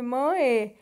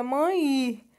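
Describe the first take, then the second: First: Mãe said following the spelling, ending in a clear e, mɐe; spelled-out mãe. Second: Mãe said as it sounds, ending in an i glide, mɐi; spoken mãe. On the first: Teacher to students, showing how mãe is written: final e sounded. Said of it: "na verdade a gente escreve mãe". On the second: Teacher to students, showing how mãe is spoken: ending in i. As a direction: say mãe the way people really speak it, final sound like i. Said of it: "a gente pronuncia mãe". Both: Shown as a demonstration.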